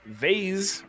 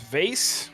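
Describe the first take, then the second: First: The vowel is 'ay' with a buzzing z. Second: The vowel is 'ay' with a hissing s. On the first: "rhymes with days" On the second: "rhymes with case"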